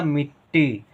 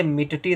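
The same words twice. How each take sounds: First: मिट्टी slowly, doubled ट with no vowel between; मिट्टी as two syllables, miṭ-ṭee; correct half ṭa. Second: मिट्टी with a vowel between the two ट sounds; wrong full ṭa. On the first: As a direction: hold the half ट, then a long ee in मिट्टी. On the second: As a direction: split मिट्टी as mi-ṭa-ṭee. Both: Shown as a demonstration. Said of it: "इसे मिट्टी नहीं पढ़ेंगे".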